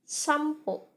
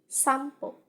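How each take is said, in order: First: An m sound comes before the p. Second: An m sound comes before the p.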